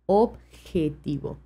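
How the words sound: The j is a soft, gentle breathy sound. This is how it is said in Latin America. "Beaucoup plus soft, hein, beaucoup plus doux"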